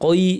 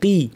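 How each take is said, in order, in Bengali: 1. স্বরধ্বনিটি অতিরিক্ত টানা হয়, শুনতে 'koi' এর মতো লাগে। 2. স্বরধ্বনিটি একটি ছোট, সাধারণ 'i' ধ্বনি। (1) "কই কই এরকম বলবো না" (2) "আমরা কি বলবো, কি"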